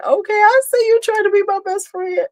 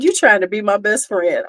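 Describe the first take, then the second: First: Much higher, sing-song teasing; high mock-flattered sing-song. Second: Said in the usual way. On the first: Real, not acted. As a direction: tease her in a high playful voice. Teasing a chat commenter.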